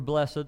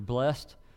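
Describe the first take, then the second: First: The word is said as two syllables. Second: The word is said as one syllable. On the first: "or two" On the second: "either with one syllable"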